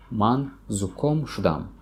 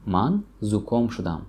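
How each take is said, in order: First: Slow demo. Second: Said in the usual way. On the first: Shown as a demonstration.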